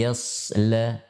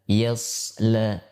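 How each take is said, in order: No difference in how they are said.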